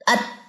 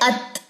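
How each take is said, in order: First: The final t is unreleased, without audible breath. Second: The final t is released with a puff of breath. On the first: The speaker calls it wrong. "अगर मैं इसको पढ़ू अत अत तो मेरी ता तो सुनाई नहीं देगी" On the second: The speaker calls it right. "ये थ, जैसे हल्के सी आपका थूक स्प्रिंकल हो रहा है"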